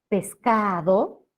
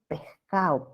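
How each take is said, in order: First: The d sound is fully pronounced. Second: The s sounds like a soft breathy h. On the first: "que tiene una D" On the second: "debilitamiento de ese como una J suave"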